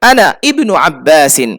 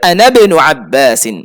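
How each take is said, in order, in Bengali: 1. ibnu-র শুরুর i আলাদাভাবে উচ্চারিত হয়। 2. ibnu-র শুরুর i নীরব থাকে এবং আগের শব্দের সাথে যুক্ত হয়। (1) "কিন্তু এখানে ইবনু হবে না" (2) "আনার সাথে মিলিয়ে পড়তে হবে"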